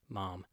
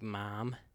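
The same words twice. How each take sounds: First: The vowel is a plain open ah sound. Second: The vowel is stretched with extra a sounds. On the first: This is the California way of saying it. "We use kind of an AH sound" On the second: This is a Midwestern way of saying it. "people in the Midwest that add extra A's"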